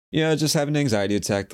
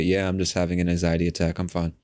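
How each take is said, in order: First: High, strained casual admission; fake nonchalance. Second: Calm, understated admission; matter-of-fact. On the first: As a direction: toss it off casually in a tight, raised pitch. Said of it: "I said it like that". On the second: Retold or imitated. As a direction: let it out calmly, as if nothing is wrong. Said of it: "just in this matter-of-fact way".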